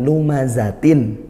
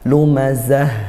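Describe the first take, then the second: First: The word ends in a -tin sound. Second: The word ends in a soft h sound. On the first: The reciter carries on into the next verse. "tapi kalau dibaca wasol ... ada tanwin lumazatin" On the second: The reciter stops at the end of the verse. "lumazah gitu jika dibaca wakof"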